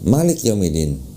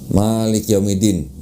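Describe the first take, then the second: First: The vowels are short and said quickly. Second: The vowels are drawn out long. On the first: This is how it is read in Morocco. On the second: This is how it is read in Indonesia.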